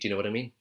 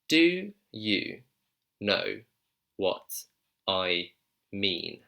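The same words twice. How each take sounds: First: The phrase is said quickly and run together. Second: The phrase is said slowly and clearly. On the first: "If I want to say that quickly" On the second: "Let me say it slowly for you"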